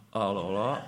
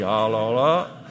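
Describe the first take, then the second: First: Hésitation embarrassée. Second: «Alors là» lancé plus fort, étonné et gêné; un «Alors là» exclamé, pris de court; «alors là» appuyé. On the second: (face à l'invitation, il s'exclame «Alors là», un peu plus fort) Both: Retold or imitated. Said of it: "J'ai dit".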